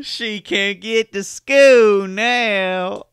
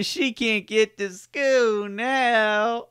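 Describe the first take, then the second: First: Slow, high, laughing mock of the southern drawl; mocking the Louisiana line. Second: Put-on slow and high, hamming the southern accent; mock Louisiana drawl. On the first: Host mocks the news interviewee in a high laughing Louisiana voice. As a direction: stretch it out high through laughter, Louisiana style. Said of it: "The way he says that". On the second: Host parodies the witness's Louisiana line, mock drawl, high and slow. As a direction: draw out every word like the Louisiana witness. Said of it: "That doesn't even sound genuine".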